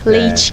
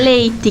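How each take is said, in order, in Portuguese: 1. A vogal final é um som de 'i'. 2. A vogal final é um 'e' alongado. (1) "Aqui em Lages a galera já fala mais com o I" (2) "lá o pessoal fala com esse E um pouquinho mais puxado"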